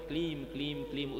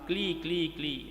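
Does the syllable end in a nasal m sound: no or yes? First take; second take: yes; no. First: The syllable ends with a nasal m. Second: The syllable ends on a bare vowel. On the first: The speaker calls it right. "ये क्लीम होता है" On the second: The speaker calls it wrong. "अनुस्वार रहित उस क्ली शब्द को"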